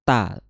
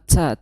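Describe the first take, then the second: First: The consonant is a clean t sound. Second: The consonant sounds like a ch sound. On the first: The speaker calls it right. "ta makhrajnya adalah di ujung lidah bertemu dengan pangkal gigi seri atas" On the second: The speaker calls it wrong. "Jangan ca ... Kalau ca nanti dia salah makhraj"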